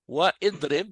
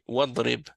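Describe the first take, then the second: First: An extra vowel is sounded after 'wa'. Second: The vowel after 'wa' is dropped entirely. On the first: The speaker calls it wrong. "mais on ne prononce pas le, le alif" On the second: The speaker calls it right. "donc c'est wadrib"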